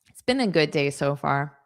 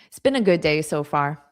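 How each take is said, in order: The two takes are said the same way.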